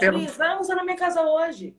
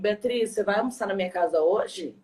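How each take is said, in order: First: It is said with an inviting tone. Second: It is said with an ironic tone.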